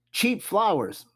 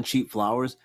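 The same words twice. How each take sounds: First: Cheap flowers lifted high in disbelief; high reveal. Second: Said in the usual way. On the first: Real, not acted. Host revealing the top worst gift, high and surprised. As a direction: announce cheap flowers with a raised pitch.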